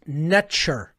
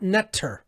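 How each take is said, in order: First: The middle consonant is a 'ch' sound. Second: The middle consonant is a plain 't' sound. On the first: The speaker calls it right. "N T R was actually pronounced Netcher" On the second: The speaker calls it wrong. "not Netter, as many people will pronounce it"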